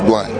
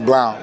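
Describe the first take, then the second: First: The O is silent in the vowel. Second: The O is sounded in the vowel. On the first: The speaker calls it right. "the O is silent" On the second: The speaker calls it wrong. "a lot of people say Blount"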